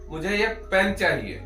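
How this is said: The stress is on the word pen. It answers what is wanted. "आपको अ, क्या चाहिए?"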